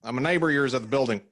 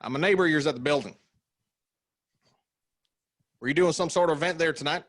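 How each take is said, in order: First: Fast Southern neighbor voice; Southern accent. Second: Higher, faster Southern twang; Southern accent. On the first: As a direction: rattle it off in a Southern twang. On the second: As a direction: hurry the repeat in a high twang. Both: Acted. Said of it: "the accent that you did".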